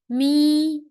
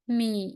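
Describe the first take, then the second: First: The pitch stays high and level. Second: The pitch dips low and then rises. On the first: "and the first tone" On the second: "Third tone"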